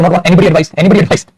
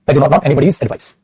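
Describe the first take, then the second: First: Said in the usual way. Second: Anybody's said slowly and lower, each word spaced out; slow correct model. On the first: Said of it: "ऐसे तो नहीं लिखोगे ना बेटा". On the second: Shown as a demonstration. Teacher models the correct sentence for the class, slow and deliberate. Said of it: "तो relate नहीं करेगा anybody advice तो".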